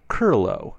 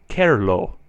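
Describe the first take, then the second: First: The first vowel is a blurred schwa-like sound. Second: The first vowel is a clear e sound. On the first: The speaker calls it wrong. "sometimes sound like they are spelled lerfu, verba, curlo, with the sound" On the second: The speaker calls it right. "I try to pronounce it very closely to the E in error"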